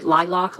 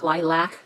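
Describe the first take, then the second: First: Lilac said as LIE-lock; alternate pronunciation. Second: Lilac said as LIE-lack; alternate pronunciation. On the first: Crafter unsure which is correct, LIE-lock pronunciation. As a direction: say Lilac with an "ah" second vowel, like lock. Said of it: "I never know if I'm pronouncing that right". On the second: Crafter offering the other option, LIE-lack pronunciation. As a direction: say lilac with a short "a" second vowel, like lack. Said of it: "I'm not sure which is correct". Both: Shown as a demonstration.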